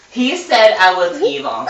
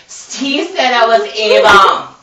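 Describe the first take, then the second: First: Steve howling He said I was evil; mock howl, higher and louder. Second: Slow, louder howl of Steve said I was evil; drawn-out mock howl; hammed-up howl, higher and louder. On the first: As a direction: wail it out like a howl. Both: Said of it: "Steve howled".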